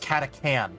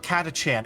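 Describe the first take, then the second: First: The middle consonant is a 'k' sound. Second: The middle consonant is a 'ch' sound. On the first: "it's Catacan" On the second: "it's not Catachan"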